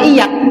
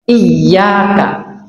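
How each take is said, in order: First: The y sound is short, single. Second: The y sound is held long, doubled. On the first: Only to the sun. The speaker calls it wrong. "tidak ada tasdidnya" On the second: Only to you, God. The speaker calls it right. "Iyyaka itu ada ya tasdidnya"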